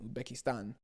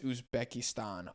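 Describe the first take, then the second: First: It is said with a plain accent. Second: It is said with a Spanish accent.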